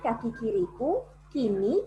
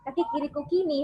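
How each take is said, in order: First: There is a pause between kiriku and kini. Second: Kiriku and kini run together without a pause. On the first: The speaker calls it right. "Kan kaki kiriku jadi satu part" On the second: The speaker calls it wrong. "jadi bukan kaki kiriku kini, bukan begitu"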